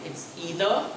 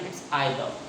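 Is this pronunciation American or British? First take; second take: American; British. First: It is said in an American accent. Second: It is said in a British accent. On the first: "When we talk about American" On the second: "when we talk about American"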